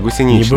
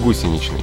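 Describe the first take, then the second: First: The stress is on a middle syllable. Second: The stress is on the first syllable. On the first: The speaker calls it wrong. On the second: The speaker calls it right.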